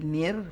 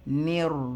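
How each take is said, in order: First: The syllable ends with flat lips. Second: The syllable ends with rounded lips. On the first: The speaker calls it wrong. "not near flat" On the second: The speaker calls it right. "near round"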